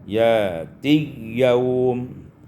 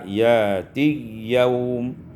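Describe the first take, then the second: The two takes are said the same way.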